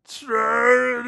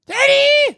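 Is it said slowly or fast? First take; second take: slowly; fast. First: It is drawn out very slowly. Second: It is said very quickly.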